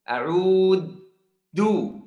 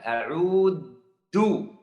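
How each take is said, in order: First: The middle consonant is a hard d sound. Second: The middle consonant is a hard d sound.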